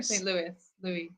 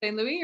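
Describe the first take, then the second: First: Louis said "LOO-iss", s sounded; Louis as Lewis. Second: Louis said "LOO-ee", silent s; Louis as Louie. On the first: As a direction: say Louis with the final s. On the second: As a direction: say Louis with no final s. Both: Shown as a demonstration. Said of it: "Saint Louis or Saint Louis".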